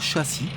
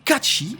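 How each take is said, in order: First: The middle consonant is an 's' sound. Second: The middle consonant is a 'tch' sound. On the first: The speaker calls it wrong. "et non pas châssis" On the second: The speaker calls it right. "Ça se prononce Catchy"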